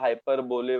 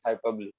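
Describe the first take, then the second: First: The word ends with a 'bowl' sound. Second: The word ends with a 'bo-lee' sound. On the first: The speaker calls it wrong. "याला hyperbole वगैरह बोलने का नहीं है" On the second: The speaker calls it right. "It is hyperbole"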